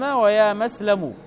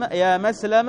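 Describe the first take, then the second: First: مسلم ending in u, يا مسلمُ; ويا مسلمُ ending in u; with damma. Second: مسلم ending on an open a, يا مسلمَ; with fatha. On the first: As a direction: say مسلم with a final damma, muslimu. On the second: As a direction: say مسلم with a final fatha on the mim. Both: Shown as a demonstration. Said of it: "بالضم والفتح".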